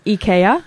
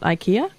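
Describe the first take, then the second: First: The first vowel is said as 'ee'. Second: The first vowel is said as 'eye'. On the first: The speaker calls it right. "A lot of Scandinavian countries say E instead of I" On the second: The speaker calls it wrong.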